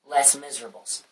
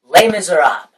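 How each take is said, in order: First: It is said with an American pronunciation. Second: It is said with a French pronunciation.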